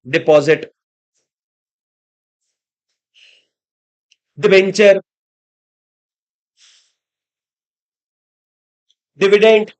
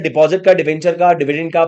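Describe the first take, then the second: First: The list is said slowly, pausing between words. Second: The list is said quickly without pauses.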